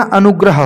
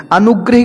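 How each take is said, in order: First: अनुग्रह as "anugraha", ending in ha; corrected अनुग्रह. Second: अनुग्रह ending in "hi", "anugrahi"; mispronounced अनुग्रह. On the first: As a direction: end अनुग्रह on a short a. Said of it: "अनुग्रह होता है". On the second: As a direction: end अनुग्रह on an i-sound, pitched up. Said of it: "की जगह". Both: Shown as a demonstration.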